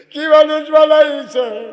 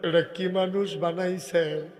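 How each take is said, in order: First: High, loud, slow cry; cried-out amazement. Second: Said in the usual way. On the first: Acted. Preacher voices angels amazed at Umar, crying out loudly. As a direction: stretch the question out in a loud cry.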